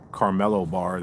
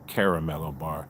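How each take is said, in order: First: The middle vowel is dropped from the word. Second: The middle vowel is pronounced in the word. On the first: The speaker calls it wrong. "people don't they don't buy a" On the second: The speaker calls it right. "They buy a"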